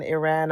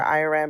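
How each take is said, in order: First: "Iran" said ih-RAN, short first vowel. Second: "Iran" said eye-RAN, first syllable like "eye"; Iran with a long I. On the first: Caller apologizing for mispronouncing it, "Iran" as ih-RAN. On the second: Caller offering the other version, "Iran" as eye-RAN. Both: Shown as a demonstration. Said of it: "I'm mispronouncing Iran or Iran".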